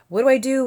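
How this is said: It sounds intense and panicked.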